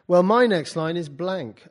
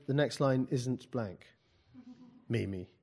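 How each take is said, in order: First: Louder, higher acted retort; student's objection. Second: Slow, measured rebuttal dropping at the name; teacher's correction. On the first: Poet voices student excusing an empty page, drawn-out objection. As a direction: stretch out the student's protest. Voicing a student's protest in story. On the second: Acted. Teacher answers student who claims a blank line, measured correction. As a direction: correct the student slowly and evenly.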